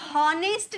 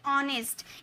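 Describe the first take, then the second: First: The word begins with an audible h sound. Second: The word begins directly with a vowel sound. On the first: The speaker calls it wrong. "बोलने पे क्या हॉनेस्ट नहीं बोलते" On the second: The speaker calls it right. "एच हमारा silent होता है तो हम बोलते ऑनेस्ट"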